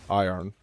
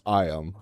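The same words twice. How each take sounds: First: It sounds like the start of 'irony'. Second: It is said with the standard pronunciation. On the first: The speaker calls it wrong. "I love saying iron, you know, like in irony" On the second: The speaker calls it right. "pronunciation of it is iron"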